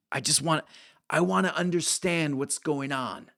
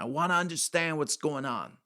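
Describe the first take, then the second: First: Put-on old New Yorker asking, a bit higher; old man quizzing Mark in a New York accent. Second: Put-on raised New York old-guy voice; retelling an old man's words in a New York accent. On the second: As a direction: repeat it as the old New Yorker. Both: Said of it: "like, New York kind of accent".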